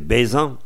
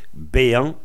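First: The z sound in the middle is pronounced. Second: The z sound in the middle is dropped. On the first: This is the full form of the verb. "dans la forme complète, c'est bézant" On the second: This is the common reduced form of the verb. "le Z, souvent, on ne prononce pas, ça fait béant"

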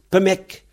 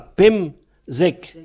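First: The word is said with a middle sound dropped. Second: The word is said in its full form. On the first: "beaucoup de gens, surtout en S20, ils prononcent Pemek" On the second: "on a Pemzek"

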